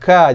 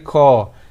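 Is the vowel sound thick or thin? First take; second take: thin; thick. First: The syllable is said with a thin vowel. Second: The syllable is said with a thick vowel. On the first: The speaker calls it right. "Ulaika, ka" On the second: The speaker calls it wrong. "jangan sekali ko"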